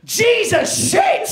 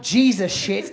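First: Slow, high, loud shocked shriek; shocked shout. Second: Said in the usual way. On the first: Retold or imitated. Woman finding a man on the toilet, shocked shriek. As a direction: shriek it in horror. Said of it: "the best reaction I've ever heard".

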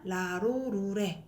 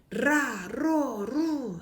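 First: "라로루레" with light tapped r's; unrolled r. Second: "라, 로, 루" each with a hard trill; slow, separate trilled "라, 로, 루"; strong rolled r. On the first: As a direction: say "라로루레" plainly, no trill. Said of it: "약하게 소리 나는 거". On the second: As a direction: roll each r forcefully in "라, 로, 루". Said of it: "반면 강하게". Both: Shown as a demonstration.

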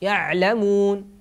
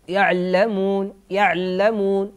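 First: "يعلمون" with a flowing ع before a single ل; slow "يعلمون", lingering on ع; full-length ع. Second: "يعلمون" with a quick ع and doubled ل; slow "يعلمون", weight on a double ل; doubled ل error. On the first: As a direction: give the ع in "يعلمون" its whole time. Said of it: "كذلك العين". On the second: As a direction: hurry off the ع in "يعلمون" onto a held ll. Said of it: "لو نطقت بالعين سريعة ستسقط في تشديد اللام". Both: Shown as a demonstration.

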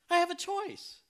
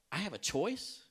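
First: Very high, louder burst of amazement; hammed-up incredulous repeat; astonished realisation. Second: Raised-pitch questioning disbelief; acted-out puzzled realisation; surprised question. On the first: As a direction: squeal it as an amazed discovery. Retold realisation, repeated more strongly. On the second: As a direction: ask it as a dawning surprise. Retold stunned question to himself.

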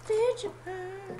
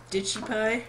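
First: Very high, soft and drawn out; silly high voice. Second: Said in the usual way. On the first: Pretend. Player toying with a silly phrase, high and stretched.

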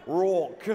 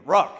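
First: "Rock" in a put-on Australian accent; Aussie-style "Rawk", played for laughs; mock Australian accent. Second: "Rock" punched out loud; one forceful, much louder "Rock"; emphatic ROCK. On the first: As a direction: imitate an Australian "Rock", loudly. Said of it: "Say it with an Australian accent". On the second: Shown as a demonstration. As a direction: say "Rock" hard, like you mean it. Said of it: "Say it like you mean it".

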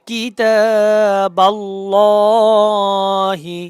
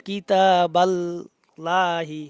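First: কিতাবাল্লাহি with a full, heavy lam, chanted very slowly and louder; correct heavy lam. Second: কিতাবাল্লাহি with a thin, light lam, said slowly; কিতাবাল্লাহি, the lam of আল্লাহ said thin as the common mistake; wrong thin lam. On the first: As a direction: stretch কিতাবাল্লাহি and thicken the lam of আল্লাহ. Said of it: "হবে কিতাবাল্লাহি". (কিতাবাল্লাহি মোটা লামে টেনে পড়া) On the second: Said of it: "no, এটা ভুল". (কিতাবাল্লাহি চিকন লামে ভুল উচ্চারণ) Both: Shown as a demonstration.

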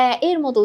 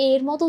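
First: First এ in এ এর মতো as open "æ"; open æ sound. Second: "এ" in এর মতো as plain closed "e"; closed e sound. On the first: Teacher contrasts two sounds, open æ. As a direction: open the first এ to the vowel of "cat". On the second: Teacher contrasts two sounds, closed e. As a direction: say এর with a pure e, not æ. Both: Shown as a demonstration. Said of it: "উচ্চারণটা কিন্তু আলাদা".

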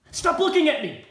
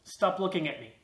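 First: Loud, high outburst at a starer; sudden exasperated yell; angry shout. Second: Said in the usual way. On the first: Acted. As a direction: shout the demand, much higher and louder. Repeated demand, escalating to a shout.

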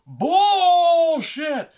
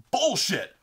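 First: Very high, drawn-out mock-furious scream; full-volume hammed-up outrage; pissed-off scream. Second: Loud, raised, angry imitation; short mock-furious yell; pissed-off outburst. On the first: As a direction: scream it long, imitating an enraged brother. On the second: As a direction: imitate a brother's first indignant shout. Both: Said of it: "He was so fucking pissed".

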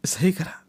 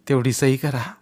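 First: सही करा whispered, rising; old man whispering his plea. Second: Plain voiced begging of सही करा; old man asking him to sign; voiced plea. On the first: Acted. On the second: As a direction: say सही करा aloud, pleading. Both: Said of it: "पायावर डोकं ठेवून म्हणाला".

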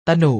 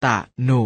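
First: Said in the usual way. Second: ตะหนุ split into ตะ and หนุ; short ตะ, clear gap, then หนุ; syllable by syllable. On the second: Shown as a demonstration. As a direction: sound out ตะหนุ in two beats. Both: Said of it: "อ่านว่า".

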